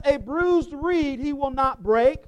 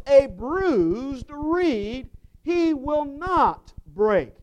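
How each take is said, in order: First: Said in the usual way. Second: Slow deliberate scripture emphasis; slow emphatic reading. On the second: Shown as a demonstration. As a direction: linger on each word, then drop on break.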